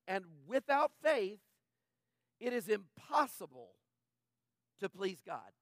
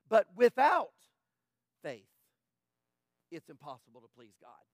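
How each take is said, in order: First: It is read with ordinary, even emphasis. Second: The word "without" is strongly stressed.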